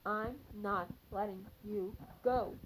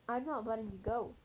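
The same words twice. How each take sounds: First: Every word is stressed separately and deliberately. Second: The line is said evenly, without extra word stress. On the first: The speaker calls it right. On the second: The speaker calls it wrong.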